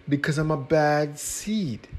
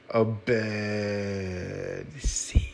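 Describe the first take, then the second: First: Said in the usual way. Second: "A bad seed" drawn out very slowly; slow dramatic. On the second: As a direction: stretch "A bad seed" out ominously.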